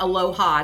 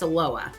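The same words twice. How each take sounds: First: The name is said the non-local way. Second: The name is said the local Portland way. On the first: The speaker calls it wrong. "it's not Aloha" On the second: The speaker calls it right. "it's Aloha. Like we say here in Portland"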